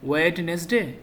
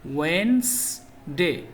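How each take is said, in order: First: The d sound in the middle is pronounced. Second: The d sound in the middle is silent. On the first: The speaker calls it wrong. "সঠিক উচ্চারণ কি ওয়েডনেসডে? না" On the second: The speaker calls it right. "ডিটা silent letter, ডি উচ্চারণ হবে না"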